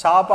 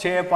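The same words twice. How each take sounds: First: చాప with a dental ts sound, like tsaapa; dental cha. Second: చేప with a palatal ch, as in English cheap; palatal cha. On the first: Teacher showing students the dental sound in చాప. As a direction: say చాప with the tongue on the teeth, tsa. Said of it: "దీన్నేమో చాను ఒకలాగా పలుకుతున్నాం". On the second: Teacher showing students the palatal sound in చేప. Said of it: "దీన్నేమో ఇంకోలాగా పలుకుతున్నాం". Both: Shown as a demonstration.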